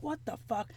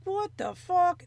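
First: Softly muttered what the fuck, much quieter; half under the breath, baffled; quiet mock disbelief. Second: Slow, higher, rising what the fuck; drawn-out what the fuck. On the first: Retelling confusion, alone at home. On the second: Retold or imitated. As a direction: stretch it out in rising panic. Retelling swelling symptoms, panicking.

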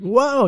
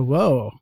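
First: High, startled whoa; scared cry. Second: Said in the usual way. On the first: Retold or imitated. Retelling a woman's reaction on the bus, scared cry. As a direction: imitate a frightened cry-out. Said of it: "kind of like a scared". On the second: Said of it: "it wasn't like a".

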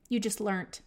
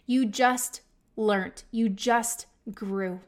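First: Said in the usual way. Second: Slow, emphatic. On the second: Retold or imitated. Repeats slower, to mirror.

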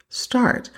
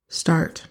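First: "Start." said again higher and firmer; emphatic repeat. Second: Said in the usual way. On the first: Real, not acted. Urging listeners to drink water, with a firm stressed "Start.". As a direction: hit "Start." as a pointed command.

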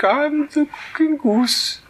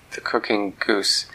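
First: Very high, slow silly goose. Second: Said in the usual way. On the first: Acted. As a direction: coo it like a giddy goose. Goose names itself.

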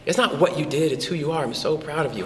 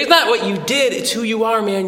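First: Softer, hushed sincere praise; tender pride. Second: Proud dad to son. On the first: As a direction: say it gently, heart to heart. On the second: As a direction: gush with pride at your boy. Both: Retold or imitated. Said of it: "I was like".

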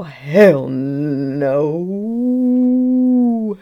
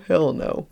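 First: 「Hell no」を強く大きく叫ぶ; loud hell no. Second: Said in the usual way. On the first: Shown as a demonstration. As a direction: belt out Hell no.

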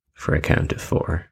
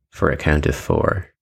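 No difference in how they are said.

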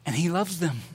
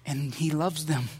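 First: Loves leaned on, gently falling; stress on loves. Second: He leaned on, the rest falling soft; stress on he. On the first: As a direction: put the weight on "loves" in "And he loves them.". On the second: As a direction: put the weight on "he" in "And he loves them.". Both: Shown as a demonstration.

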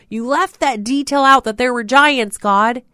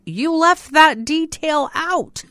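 First: "out" hit loud, higher and louder; louder repeat. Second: "that" stretched, slow and high; stress on that. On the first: Preacher pressing the complaint to God, louder. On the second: Preacher teasing God, slow with "that" leaned on. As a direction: lean on "that" in "you left that detail out", drawn slow. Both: Retold or imitated. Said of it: "And I'm like".

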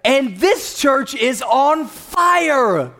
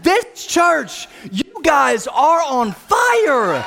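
First: High, loud, drawn-out preacher proclamation; rousing declaration. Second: Full-out high, loud rallying shout; emphatic repeat. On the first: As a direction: proclaim it to fire up the congregation. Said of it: "maybe I didn't say it right". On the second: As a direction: shout it bigger to rouse the crowd, stretching the last word. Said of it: "I said". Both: Real, not acted.

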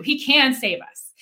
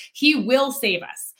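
First: "can" stressed in a slow declaration. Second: "will" stressed in a slow declaration. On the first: Three men answer the king, stressing "can". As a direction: declare it slowly, leaning on "can". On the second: Three men answer the king, stressing "will". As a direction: declare it slowly, leaning on "will". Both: Retold or imitated.

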